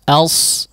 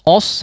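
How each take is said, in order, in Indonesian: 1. Suku katanya ringan, dengan vokal yang tipis. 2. Suku katanya berat, dengan vokal yang menebal. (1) "jangan os ya" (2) "penebalan huruf yang memang berdampingan dengan huruf yang tebal ya, padahal dia tipis ya"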